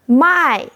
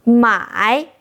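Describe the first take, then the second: First: "My" falling from high; fourth tone. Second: "My" dipping, then rising; third tone. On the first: Teacher showing mai meaning sell, falling tone. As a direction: start "My" high and drop it. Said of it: "means sell". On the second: Teacher showing mai meaning buy, dipping tone. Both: Shown as a demonstration.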